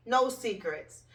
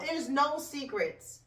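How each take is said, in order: First: Said in the usual way. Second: There's NO secrets, slow and drawn out; stress on no. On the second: Real, not acted. To viewers, stressing "no" slowly to make the point. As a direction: lean hard on "no" and draw the line out slowly.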